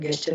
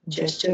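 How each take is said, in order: First: The word begins with a g sound. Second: The word begins with a j sound. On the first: The speaker calls it wrong. "गेस्चर नहीं होता" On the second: The speaker calls it right. "जेस्चर होता है"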